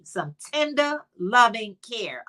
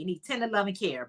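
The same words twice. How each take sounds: First: Tender, loving care drawn out slow and fond. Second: Tender, loving care rattled off fast and soft; quick recap. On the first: To her chat, dwelling slowly on tender, loving care. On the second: To her chat, a fast soft recap of tender, loving care. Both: Shown as a demonstration. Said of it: "needs some love and some care".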